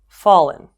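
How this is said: The pitch falls at the end. "using rising and falling intonations"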